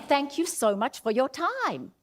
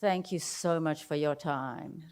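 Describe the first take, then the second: First: Higher, engaged delivery; lively, grateful thanks; energetic thanks. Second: Lower, softer and slow; lower, half-hearted thanks; flat low thanks. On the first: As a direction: thank them with real energy. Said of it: "how I'm saying it". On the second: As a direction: thank them with no energy. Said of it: "the difference between". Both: Shown as a demonstration.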